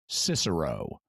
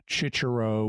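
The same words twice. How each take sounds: First: It uses the traditional English pronunciation. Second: It uses the ecclesiastical Latin pronunciation. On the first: "or more familiarly" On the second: "an ecclesiastical pronunciation"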